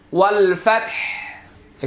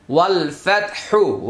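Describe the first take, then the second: First: ওয়াল ফাতহ with the vowel dropped, ending on h; stopped on h. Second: ওয়াল ফাতহু with final u sounded; ফাতহু ending on a clear u; with the vowel. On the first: Teacher shows the correct stop with jazm. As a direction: cut ফাতহ off at the h. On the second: Teacher shows the wrong ending before the stop. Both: Shown as a demonstration. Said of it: "আমরা এখন জজম দিব".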